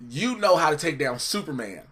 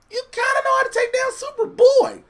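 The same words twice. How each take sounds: First: Said in the usual way. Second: Very high, louder sarcastic squeal. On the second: Real, not acted. Co-host arguing Bruce can beat Superboy, high sarcastic jab. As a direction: push it way up high, dripping sarcasm on "kinda". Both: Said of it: "I said that's sarcastic".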